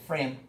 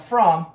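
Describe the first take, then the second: First: The vowel is reduced to a short weak sound. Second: The vowel is said fully and clearly. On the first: "por esto beneficio de la fluidez vamos a decir una E en lugar de from" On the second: "Este sería from"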